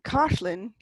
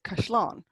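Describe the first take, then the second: First: The stress is on the first syllable. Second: The stress is on the last syllable. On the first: This is the Dublin way of saying it. "Instead of saying Cashlin" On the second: This is the southern and western way of saying it. "you'd say Cashlán"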